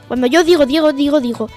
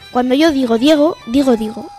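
First: It is said fast. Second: It is said at normal speed.

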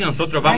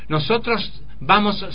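First: The s sounds are dropped entirely. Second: Every s is pronounced fully. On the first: It sounds crude and uneducated. "tampoco ser el bruto que el I de la S" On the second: It sounds like a speaker from Santiago del Estero. "Tampoco se puede enseñar que todas las letras se pronuncian"

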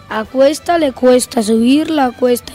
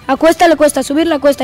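First: It is spoken at a normal speed. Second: It is spoken at a fast speed. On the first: "Velocidad normal" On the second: "La velocidad rápida"

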